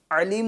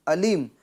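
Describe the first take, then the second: First: علیم with a squeezed mid-throat ayn at the start; correct ayn. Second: علیم with a clean glottal a, no squeeze; wrong hamza. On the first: Teacher contrasting with the error, throaty ayn in علیم. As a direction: press the throat on the first sound of علیم. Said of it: "علیم نہیں". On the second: Teacher demonstrating the mistake, plain hamza in علیم. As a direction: say علیم as alim, losing the ayn. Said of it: "حمزہ کی آواز ادا کرتا ہے". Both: Shown as a demonstration.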